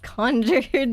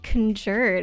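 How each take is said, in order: First: The stress is on the first syllable. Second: The stress is on the second syllable. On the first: The speaker calls it right. "It's conjured" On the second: The speaker calls it wrong. "why are you saying it conjured? ... changing the emphasis"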